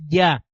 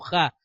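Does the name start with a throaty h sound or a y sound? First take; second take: y sound; throaty h. First: It starts with a y sound. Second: It starts with a throaty h sound. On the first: The speaker calls it right. "lo correcto es Yah, porque la letra hebrea Yod se pronuncia como una I y no como una J" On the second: The speaker calls it wrong. "la van a encontrar muchas veces como Ja"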